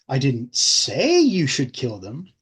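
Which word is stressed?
say. The word 'say' is stressed.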